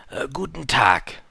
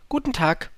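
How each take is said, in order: First: Slow, louder merchant greeting; salesman's drawn-out hello. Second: Light, higher-pitched greeting; small, polite hello; little prince. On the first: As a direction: draw the greeting out in a put-on voice. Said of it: "sagte der Händler". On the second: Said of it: "sagte der kleine Prinz". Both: Acted.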